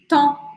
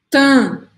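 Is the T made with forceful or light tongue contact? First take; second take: light; forceful. First: The T is made lightly with the tongue tip. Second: The T is made with forceful tongue contact. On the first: The speaker calls it right. "em francês é a pontinha da língua" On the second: The speaker calls it wrong. "Não é"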